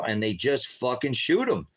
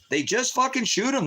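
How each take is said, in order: First: Said in the usual way. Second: Much higher, cracking with disbelief; the horror breaks through his voice; anguished repeat. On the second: Real, not acted. Father reliving his son being shot, voice jumping high.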